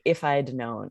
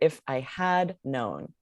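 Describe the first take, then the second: First: The word had is contracted to I'd. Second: The word had is said in full. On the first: "that contraction and say" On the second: "say the whole had"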